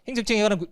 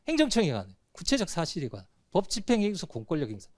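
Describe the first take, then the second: First: It is read in one unbroken run. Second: It is read in four chunks with pauses.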